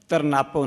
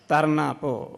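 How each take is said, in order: First: The two parts are run together without a break. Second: A short break separates the two parts. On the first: The speaker calls it wrong. "ਤਰਨਾਪੋ ਨਹੀਂ ਕਹਿਣਾ" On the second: The speaker calls it right. "ਉਚਾਰਨ ਵੇਲੇ ਤਰਨਾ ਕਹਿ ਕੇ ਅਤੇ ਪੋ ਸਮਝਣ ਵਾਸਤੇ ਉਸਨੂੰ ਅਲੱਗ ਰੱਖਣਾ"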